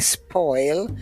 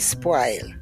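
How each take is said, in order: First: The vowel is rounded, as in standard English. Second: The vowel is a broad, open Jamaican vowel. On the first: This is the standard English way. "instead of saying spoil" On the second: This is the Jamaican way. "we say spoil ... They're all broad A vowels"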